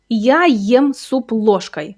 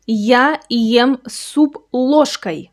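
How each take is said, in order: First: "Я ем суп ложкой." slowly again, with a different tone; slow repeat. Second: "Я ем суп ложкой." said slowly word by word; slow demo. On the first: Teacher repeating the sentence for learners. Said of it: "Look at that last word". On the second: Teacher modelling the sentence for learners. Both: Shown as a demonstration.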